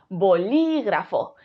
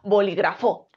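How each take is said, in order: First: The stress is on the second syllable. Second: The stress is on the last syllable. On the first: The speaker calls it right. "Si creemos que es li" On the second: The speaker calls it wrong. "Y si cre creemos que es fo"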